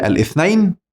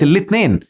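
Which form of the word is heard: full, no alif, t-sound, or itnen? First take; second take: full; itnen. First: The word starts with a vowel and has a th sound. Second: It has a t sound and a plain e vowel. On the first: "كانت الأول بالعربية الاثنين" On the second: "وحتى الياء بقت هين، فبقت الاثنين"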